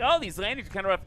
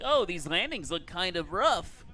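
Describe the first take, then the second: First: Mocking whiny online commenter; internet troll. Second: Internet troll. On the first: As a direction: sneer it like a chat troll. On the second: Retold or imitated. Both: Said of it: "that's the internet troll voice".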